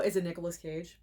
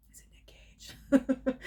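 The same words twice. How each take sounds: First: Said in the usual way. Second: Slow, breathy teasing whisper. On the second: Real, not acted. Guessing the star to viewers, whispered. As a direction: whisper the name like a secret.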